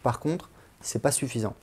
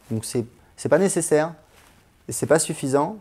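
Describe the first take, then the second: First: Said in the usual way. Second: Pas pushed louder and a bit higher; emphatic repeat. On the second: Real, not acted. Vlogger insisting to viewers that classes are not enough, stressing pas. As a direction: lean hard on pas to drive it home.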